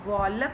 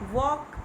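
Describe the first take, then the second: First: The l sound is pronounced. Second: The l sound is silent. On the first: The speaker calls it wrong. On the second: The speaker calls it right.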